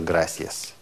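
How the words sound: The c sounds like an s. This is the pronunciation used in Latin America. "вам ближе Латинская Америка, то можете говорить просто"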